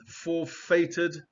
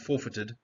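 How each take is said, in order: First: FORFEITED slowly, with a stressed FAY in the middle; full-vowel pronunciation. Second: FORFEITED as FOR-fi-ted, middle reduced; unstressed middle syllable. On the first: Teacher first spells out the vowel, FORFEITED slow as for-FAY-ted. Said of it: "or actually just pronounced forfeited". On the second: Teacher corrects to the usual form, FORFEITED with unstressed middle. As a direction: say FORFEITED lightly, stressing only FOR. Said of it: "You don't stress that syllable". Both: Shown as a demonstration.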